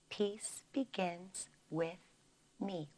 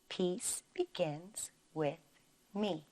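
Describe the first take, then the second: The two takes are said the same way.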